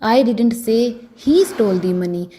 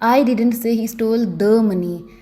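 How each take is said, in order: First: The word 'he' carries the stress. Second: The word 'the' carries the stress. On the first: Someone else may have stolen it. "अगर मैं ही पर जोर डालकर बोलूंगी" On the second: Some other money may have been stolen. "अगर मैं दी पर जोर डालकर बोलूँगी"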